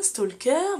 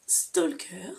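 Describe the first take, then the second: First: Said in the usual way. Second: Whisper. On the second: Real, not acted. Showing her reading list, she whispers the title. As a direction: whisper the title, breathy and unvoiced.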